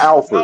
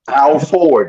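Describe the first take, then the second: First: The second part sounds like 'fred'. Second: The second part sounds like 'ford'. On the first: The speaker calls it wrong. "not Alfred" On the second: The speaker calls it right. "how it's spelled is how you say it"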